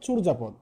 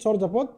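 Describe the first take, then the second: First: The first syllable has a 'u' vowel. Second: The first syllable has an 'o' vowel.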